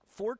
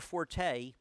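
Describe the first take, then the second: First: The word is said as one syllable, fort. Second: The word is said as two syllables, for-tay. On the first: This is the accurate pronunciation. The speaker calls it right. "it's actually pronounced Fort" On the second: This is a commonly accepted pronunciation. The speaker calls it wrong. "Forte isn't, I think, it's one of those accepted pronunciations"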